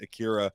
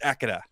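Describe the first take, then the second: First: The name is said with an American accent. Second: The name is said without an American accent. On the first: The speaker calls it wrong. "we've been pronouncing it" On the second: The speaker calls it right.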